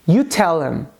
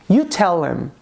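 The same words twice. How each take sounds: No difference in how they are said.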